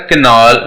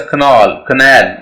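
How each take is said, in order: First: "canal" said in the rejected way, ending in a rounded nawl; wrong pronunciation. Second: "canal" as kuh-NAL; stress on N. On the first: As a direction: let the end of "canal" round to awl. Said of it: "It's not a canal". ("canal" का गलत उच्चारण) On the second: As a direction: schwa first in "canal", weight on the n. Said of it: "एन पे stress है". ("canal" में एन पर ज़ोर) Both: Shown as a demonstration.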